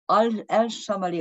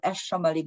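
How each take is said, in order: First: The name begins with the syllable 'al'. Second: The name begins with the syllable 'esh'. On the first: "both uh, pronunciations" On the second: "both uh, pronunciations"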